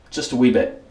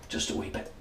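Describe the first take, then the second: First: Mock British accent, lightly put on; a quick jokey British "wee bit"; pathetic British accent. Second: Breathy mock British whisper; whispered British aside. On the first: Shaving reviewer jokes in a lame British accent. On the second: Reviewer mutters a joke echo in whispered British. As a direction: whisper "wee bit" in a silly British accent. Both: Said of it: "my pathetic British accent".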